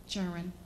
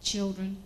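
First: Put-on "churn" said as Southern dialect for children; "churn" in place of the clear two-syllable children; dialect pronunciation. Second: Said in the usual way. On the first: Shown as a demonstration. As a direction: squash children into a drawled "churn". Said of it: "Children, churn". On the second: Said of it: "The churn are bad".

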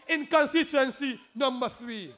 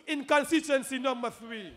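Both takes have the same delivery.

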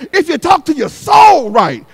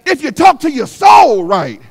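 The two takes are said the same way.

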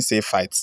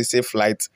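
First: "Safe fight" with no L in "fight"; mistyped word. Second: Said in the usual way. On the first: Shown as a demonstration. Host shows what the person wrongly typed, literal misreading. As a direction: say "fight" where flight was meant, exposing the typo. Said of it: "The person is saying". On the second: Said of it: "this person wants to say".

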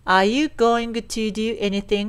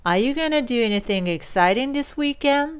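First: "going to" said in full, slowly, as two separate words. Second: "gonna" as one short linked word, "gana", slow question. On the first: Teacher shows the unshortened form is OK too, full "going to". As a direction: give "going to" both words, unreduced. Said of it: "こう言わなければ伝わらないということではありません". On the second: Teacher reads the sentence for learners, linked "gonna". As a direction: read it through with "going to" reduced to "gonna". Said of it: "going toの部分をgonnaで読んでみます". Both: Shown as a demonstration.

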